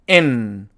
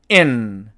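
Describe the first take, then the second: The two takes are said the same way.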